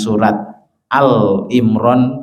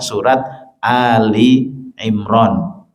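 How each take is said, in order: First: The name begins with one syllable, 'Al'. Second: The name begins with two syllables, 'Ali'. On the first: The name follows the article pattern of other surah names. The speaker calls it wrong. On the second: The name means the family of Imran. The speaker calls it right. "Yang betul penyebutan surat ini adalah"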